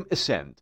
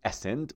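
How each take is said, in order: First: Ascend said with the "ed" sound, not "eg"; teacher models ascend clearly as "esend"; correct pronunciation. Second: Ascend said the wrong way, as the teacher warns not to say it; the mistaken reading of ascend, shown as an error; wrong pronunciation. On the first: (تلفظ درست ascend با صدای «اد») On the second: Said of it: "نمیگفتیم ascend". (تلفظ نادرست ascend) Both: Shown as a demonstration.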